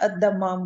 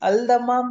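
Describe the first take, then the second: First: The L merges into a doubled D sound. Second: The L sound is pronounced before the D. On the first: "जैसे अद्दम्माम बोलते हैं हम" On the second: "अल्दम्माम बोले"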